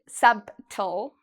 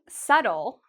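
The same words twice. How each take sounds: First: The B is pronounced in the word. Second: The B is silent in the word. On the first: The speaker calls it wrong. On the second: The speaker calls it right.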